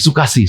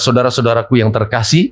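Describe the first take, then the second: First: The phrase is squeezed into one short word. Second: The phrase is pronounced fully with every syllable. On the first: The speaker calls it wrong. "Dipotong sama dia" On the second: The speaker calls it right. "yang seringkali dia mau bilang"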